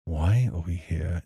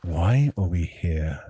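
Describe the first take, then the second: First: A bit angry. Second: Slow, heavier question, leaning on why; a bit angry. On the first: Voice actor retakes Feli's line, a little angrier. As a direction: let a little anger into it. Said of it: "Yeah, more like that". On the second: Feli questions, leaning on why. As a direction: stress on why. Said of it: "Maybe just on the why, a little more emphasis". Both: Acted.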